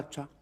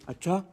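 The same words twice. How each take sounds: First: It sounds thoughtful and is drawn out long. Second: It sounds shocked, with wide-eyed surprise.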